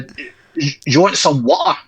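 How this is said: It is spoken in a Glasgow Scottish accent. "if you're from Glasgow"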